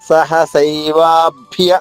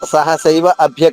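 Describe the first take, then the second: First: The words are joined with a long vowel. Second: The words are split apart with a short break. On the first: The speaker calls it right. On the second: The speaker calls it wrong.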